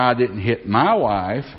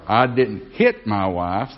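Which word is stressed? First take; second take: my; hit. First: The stress is on the word my. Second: The stress is on the word hit.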